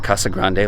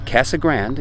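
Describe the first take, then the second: First: The name is pronounced with Spanish sounds. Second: The name is pronounced with English sounds. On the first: This is how it is said in Spanish. "like it should be in Espanol" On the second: This is how the locals say it. "they pronounce it that way"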